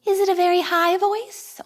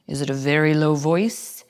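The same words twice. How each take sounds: First: Very high voice. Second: Very low voice. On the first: Teacher showing kids a very high voice. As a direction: jump way up into a high squeaky register. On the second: Teacher showing kids a very low voice. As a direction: drop the voice down low. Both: Shown as a demonstration.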